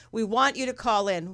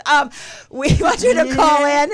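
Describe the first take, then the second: First: Said in the usual way. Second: Louder, higher, laughing invitation; big, animated and laughing plea; playful Italian flourish. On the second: Pretend. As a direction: ham up the call-in plea. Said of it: "It's an Italian thing".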